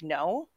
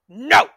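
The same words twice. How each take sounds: First: It is said calmly and quietly. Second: It is yelled angrily.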